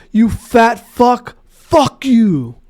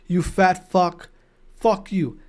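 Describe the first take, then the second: First: Slow, higher, louder jeering insult; mock heckler insult. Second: Quiet retold insult. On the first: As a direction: spit it out slowly like a rude heckler. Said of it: "another guy go". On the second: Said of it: "that guy who said that to Sender".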